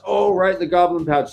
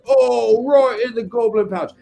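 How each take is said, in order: First: It is said in a normal voice. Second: It is said like a soccer announcer.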